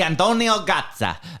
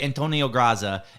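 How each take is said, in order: First: The name is pronounced the Italian way. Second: The name is pronounced the anglicized English way. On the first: The speaker calls it right. "I said it right" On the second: The speaker calls it wrong.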